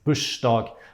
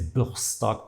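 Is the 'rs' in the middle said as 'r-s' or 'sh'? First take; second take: sh; r-s. First: The r and s merge into sh. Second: The r and s are both sounded. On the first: This is how most of the country says it. "in Oslo and Trondheim and all the rest of the country, people say" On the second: This is how the southwest dialects say it. "Only in the southwest, like in Bergen, Stavanger, people would say"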